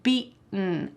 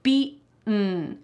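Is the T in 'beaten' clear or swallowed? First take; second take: swallowed; swallowed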